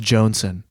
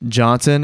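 First: "Johnson" with a long O; altered pronunciation. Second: Said in the usual way. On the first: Shown as a demonstration. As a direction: say "Johnson" as "Joan-son". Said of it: "they say it's pronounced Johnson". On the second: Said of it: "they say it's pronounced".

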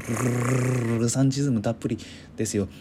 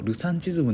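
First: ルルルルルルルサンチズム with a long trilled r; rolled r. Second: Said in the usual way. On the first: Shown as a demonstration. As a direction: trill the r in ルサンチズム hard. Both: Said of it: "もう巻き舌ですよ".

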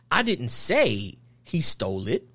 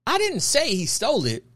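First: "I" pushed with a rise, said slowly; slow demo hitting "I"; stress on I. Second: "didn't" hit hardest, falling; stress on DIDN'T. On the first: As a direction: lean on the word "I" and let the rest trail. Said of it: "we try to emphasize our words". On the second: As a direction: punch the word "didn't". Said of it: "he said all them different ways". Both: Shown as a demonstration.

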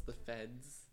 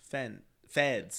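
First: Feds said clearly, correcting "fence"; stress on feds. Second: "feds" fixed after a slip to "Fen-"; corrected feds. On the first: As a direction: set "feds" against "fence". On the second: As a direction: land on "feds" with a final d. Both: Shown as a demonstration. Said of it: "Not the fence, the feds".

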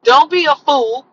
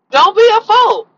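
First: Said in the usual way. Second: Higher and louder, driving it home; emphatic warning. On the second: Real, not acted. Warning women not to hand over their money, loud and emphatic. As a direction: raise it up and really warn them.

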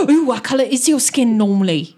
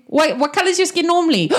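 First: Louder, gasping curiosity; gasp, then ask it with fascination; excited gasp. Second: High, hurried question; quick question. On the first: Gasps and repeats the question excitedly. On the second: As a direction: break off and ask it quickly. Interrupting himself with a question. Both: Acted.

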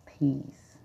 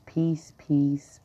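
First: Peace, let it fall away very softly; soft fading peace. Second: Breathy whispered peace, no voice; a soft mantra whisper. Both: Acted. Repeating peace as a calm mantra.

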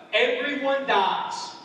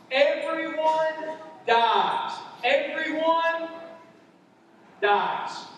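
First: Everyone dies said slowly, each word weighted; preacher's slow emphatic point; slow emphasis. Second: Higher, slow, punched "Everyone dies"; preacher repeats louder and slower; building emphasis. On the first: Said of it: "Number one, first point". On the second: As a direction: hammer the point home. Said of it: "first point". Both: Shown as a demonstration.

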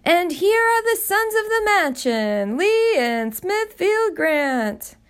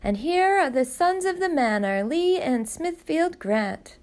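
First: Much higher and louder, grand, names drawn out slowly; booming butler announcement. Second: A mock butler's grand introduction; Mrs. Grant rehearsing the butler's fanfare; mimicking the butler's announcement. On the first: Acted. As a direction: announce the sons like a grand herald. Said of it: "the butler's booming voice called out". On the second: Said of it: "He'll say".

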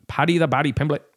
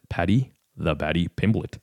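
First: Higher-pitched, badly faked Liverpool accent; terrible Liverpool accent. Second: Said in the usual way. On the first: Shown as a demonstration. Fight fan announcing Paddy's nickname in a terrible Liverpool accent. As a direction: put on a bad Scouse accent. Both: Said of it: "that was my terrible, uh, Liverpool accent".

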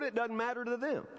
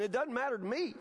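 First: "them" stressed, falling at the end. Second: "me" stressed with a rise at the end. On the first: Preacher worried about the room's view, stress on "them". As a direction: land on "them" and let it drop. Contrasts the others with himself. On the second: Preacher contrasting himself with the room, stress on "me". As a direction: lean on "me", lifting it. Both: Real, not acted.

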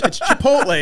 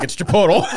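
First: "Chipotle" as "chi-POHT-lay", loud and high; outraged correction. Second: "Chipotle" as "chi-POH-tul", high and loud; deliberate mispronunciation. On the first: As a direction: correct them sharply, "Chipotle" ending in "-lay". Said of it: "it just pisses everybody off". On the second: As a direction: insist blithely on "Chipotle" ending in "-tul". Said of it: "to say Chipotle everywhere". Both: Retold or imitated.

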